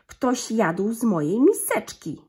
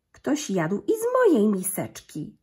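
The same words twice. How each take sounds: First: Slow, louder grumbling papa bear; gruby zrzędliwy głos. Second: Louder, slightly lighter mama bear; a lighter mama-bear call, raised in volume; cieńszy głosik. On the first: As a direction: grumble it slowly and loudly like a cross big bear. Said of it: "grubym, zrzędliwym głosem". (tata niedźwiedź woła wolno, głośniej i zrzędliwie) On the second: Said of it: "cieńszym głosikiem". (mama niedźwiedzica woła głośniej, lżejszym głosikiem) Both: A narrator's reading.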